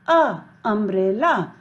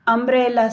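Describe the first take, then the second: First: "a" alone, then "umbrella" from that sound; phonics U sound. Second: Said in the usual way. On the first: Shown as a demonstration. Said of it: "we will pronounce it". ("a, umbrella", U की ध्वनि दिखाते हुए) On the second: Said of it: "Umbrella starts with U".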